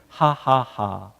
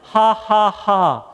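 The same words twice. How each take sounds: First: The laugh is pitched lower. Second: The laugh is pitched higher.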